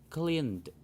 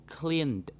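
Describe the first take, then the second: The two takes are said the same way.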